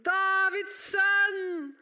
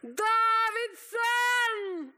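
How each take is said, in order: First: Long sustained holler; slow, stretched shout for attention; calling out. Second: Long, high, full-voiced holler; piercing drawn-out cry for attention; shouting even higher. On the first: Acted. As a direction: cry out the name, holding each word. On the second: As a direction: yell it out, stretched almost into song. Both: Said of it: "han ropte bare enda høyere".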